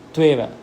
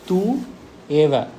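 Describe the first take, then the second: First: The words are joined, the 'u' becoming a 'v'. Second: The two words are said separately with a vowel 'u'.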